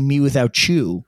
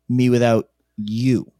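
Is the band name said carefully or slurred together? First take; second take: slurred; careful. First: The name is slurred together in a gangster-like accent. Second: The name is said slowly with each word clear. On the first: The speaker calls it wrong. "I say Me Without You" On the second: The speaker calls it right. "instead of Me Without You"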